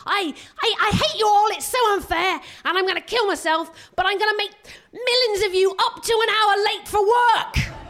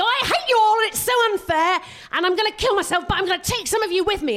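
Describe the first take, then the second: First: High, loud passive-aggressive whine; hammed-up sulky teenager, building to a laughing shout; mock teen wail ending in a laugh; petulant British teen. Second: Put-on high, loud whiny teen rant; hammed-up angry hurting teenager; mock teen yelling I hate you all; petulant American teen. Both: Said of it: "they go".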